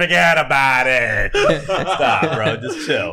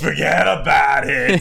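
First: Slow Boston "Forget about it"; Boston accent. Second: Slow Boston "Forget about it"; drawn-out Boston wiseguy line; Boston accent. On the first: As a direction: lean into the Boston drawl. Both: Pretend. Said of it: "So I'm giving a Boston accent".

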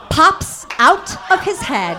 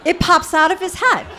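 First: Higher and louder, stunned; shocked telling. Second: Higher and louder, laughing, hammered home; emphatic repeat. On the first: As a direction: blurt it out in disbelief. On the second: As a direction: say it again for the shock of it. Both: Real, not acted.

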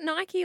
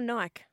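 First: Nike said "NY-kee"; two-syllable Nike. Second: Nike said "Nyke"; one-syllable Nike. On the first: Co-host asks which way to say it, Nike as "NY-kee". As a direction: say Nike to rhyme with spiky. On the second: Co-host offers the other option, Nike as "Nyke". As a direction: say Nike to rhyme with bike. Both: Shown as a demonstration. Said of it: "Is it Nike or Nike?".

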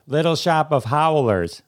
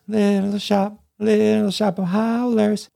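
First: Said in the usual way. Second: High sung musical-theatre refrain; playful high sung parody; sung show tune. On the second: Shown as a demonstration. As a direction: sing it high like a show chorus. Sings the punned show tune.

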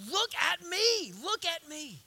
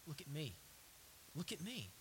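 First: High, insistent preacher's call; urgent command, easing on the repeat; forceful command. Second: Low, very soft plea; quiet, intimate call for attention; hushed command. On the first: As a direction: raise it up and stretch it out. God's command at full force. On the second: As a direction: drop almost to a murmur. God's command, dropped to hush. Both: Acted.

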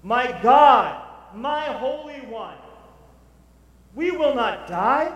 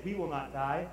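First: Loud, high, slow proclamation; preaching at full force. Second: Said in the usual way. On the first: Acted. Preacher proclaiming "we will not die", loud, high and slow. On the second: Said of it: "him to say".

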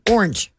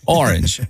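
First: "orange" squashed into one syllable. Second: "orange" in full syllables, OR-inj, pitch dropping; drawn-out orange. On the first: Co-host showing her own way to say it, "orange" in one syllable. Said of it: "When I say it, it has, like, one". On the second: Host showing his teased pronunciation, "orange" as two falling syllables. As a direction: say "orange" with both syllables clearly opened out. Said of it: "it has, like, six". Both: Shown as a demonstration.

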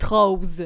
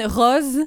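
First: «rose» with a closed o, like «roze»; Québec rose. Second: «rose» with an open o, like «rosse»; southern rose. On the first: She imitates how Quebecers say «rose», closed o. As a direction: say «rose» the closed-o way the host uses. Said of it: "vous dites". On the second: She shows her southern «rose» to the host, open o. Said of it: "je dis". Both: Shown as a demonstration.

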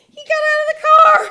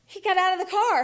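First: High, loud, fast squeal; shrieking excitement at a sudden chance; elated realisation. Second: Higher-pitched, moderate-volume surprise; startled thought, not yet shouted; dawning realisation. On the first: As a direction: burst out with thrilled disbelief. Excited realisation repeated much louder. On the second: Realisation, first take before louder repeat. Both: Retold or imitated.

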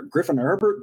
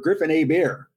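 First: Said in the usual way. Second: "Hebert" said the French way, as ay-BEAR; French pronunciation. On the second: Shown as a demonstration. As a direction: put a little French on "Hebert", silent H and T. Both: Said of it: "Throw, throw a little French on it".

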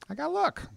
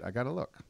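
First: Much higher, whiny repeat; high squeaky repeat. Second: Said in the usual way. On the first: Acted. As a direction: pitch it way up on the repeat.

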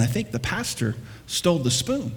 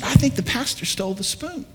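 First: Said in the usual way. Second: Insistent wife, higher, rising on think; insisting. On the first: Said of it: "she started to tell her husband". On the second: Retold or imitated. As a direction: push the accusation with a rising "think". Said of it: "No, she said".

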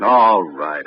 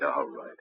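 First: Said in the usual way. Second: Resigned fade. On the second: Acted. Tenny gives in under pressure.

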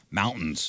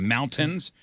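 First: MOUNTAINS with a glottal stop for the T; dropped T. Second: Said in the usual way. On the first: Shown as a demonstration. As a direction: swallow the T in MOUNTAINS, "moun'ns". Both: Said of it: "they would drop the T".

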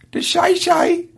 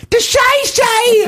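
First: Tentative high falsetto question. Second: Strained, drawn-out falsetto yell; falsetto attempt. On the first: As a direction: try the catchphrase in falsetto without yelling. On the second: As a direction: push it out very high and slow. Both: Shown as a demonstration. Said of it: "can't do this falsetto thing".

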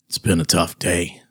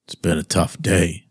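First: Low flat mocking quote; deadpan echo of the quote; monotone voice. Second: Flat, low monotone quote; deadpan, no life in it. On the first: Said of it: "you are going to say". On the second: Retold or imitated. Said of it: "in a monotone voice".

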